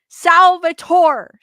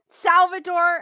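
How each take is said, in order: First: The middle consonant is a T sound. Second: The middle consonant is a D sound. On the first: The speaker calls it right. "T, not a D" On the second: The speaker calls it wrong. "Not Salvador"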